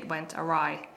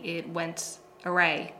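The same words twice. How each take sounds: First: The last word sounds like a-rye. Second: The last word sounds like array. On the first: The speaker calls it right. "it's actually it went awry" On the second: The speaker calls it wrong. "I made a slight pronunciation error"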